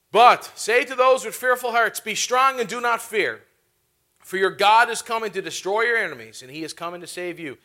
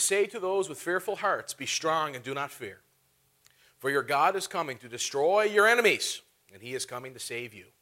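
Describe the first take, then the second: First: Preaching the verse. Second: Scripture reading. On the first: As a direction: declare it boldly to the congregation. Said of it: "repeated with force". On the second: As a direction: read the verse calmly to the congregation. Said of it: "Turn over in your Bibles". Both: Real, not acted.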